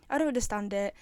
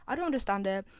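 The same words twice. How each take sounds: The two takes are said the same way.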